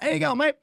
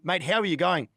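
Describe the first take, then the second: First: It is asked as a quick casual greeting. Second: It is asked slowly with sincere concern.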